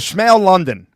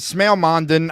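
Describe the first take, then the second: First: The surname begins with an L sound. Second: The surname begins with an M sound. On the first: The speaker calls it wrong. "that's how I say it" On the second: The speaker calls it right. "it was Smail Mondon. I said London"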